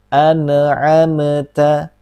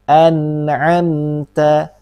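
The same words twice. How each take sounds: First: The n sound bounces with an added echo. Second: The n sound is held smoothly without bouncing. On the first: The speaker calls it wrong. "membaca secara terpantul" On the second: The speaker calls it right. "baca seperti ini"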